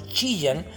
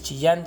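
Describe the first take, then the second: First: The stress is on the first syllable. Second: The stress is on the last syllable. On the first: "a una palabra grave" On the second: "pasó de ser de una palabra aguda"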